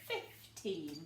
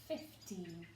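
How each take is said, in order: First: The first part sounds like short fif. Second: The first part sounds like short fif.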